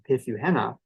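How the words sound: Flat English-style contour with a short N.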